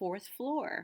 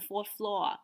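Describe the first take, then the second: First: The r sounds are pronounced. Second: The r sounds are dropped. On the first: "Being very artful" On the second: "if there are less"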